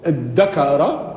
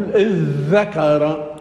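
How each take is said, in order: First: ادكر slowly as id-dakara, doubled d; variant with dal. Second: اذ ذكر slowly as idh-dhakara, doubled dh; variant with dhal. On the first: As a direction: hold a hard double d in ادكر. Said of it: "لك في اللغة أن تقول". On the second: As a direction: idhdhakara for اذ ذكر, dh in place of d. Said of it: "ولك أن تقول". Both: Shown as a demonstration.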